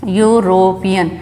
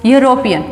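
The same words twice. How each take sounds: First: यूरोपियन slowly in parts, "yoo-ro-pian"; sounded out. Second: Said in the usual way. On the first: Shown as a demonstration. Teacher showing students the first sound, यूरोपियन slow and syllable by syllable. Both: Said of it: "pronunciation क्या है".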